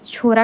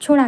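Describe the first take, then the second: First: छोरा with a plain r instead of ड़; Haryana-side pronunciation. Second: छोड़ा with a flapped retroflex ड़; Nagpuri pronunciation. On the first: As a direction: say छोरा, tongue tip forward for a simple र. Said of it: "Haryana तरफ के language में". (छोरा में सादे र का हरियाणवी उच्चारण) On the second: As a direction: say छोड़ा, tongue curled back for the ड़. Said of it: "Nagpuri में लड़के को". (छोड़ा में मूर्धन्य ड़ का नागपुरी उच्चारण) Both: Shown as a demonstration.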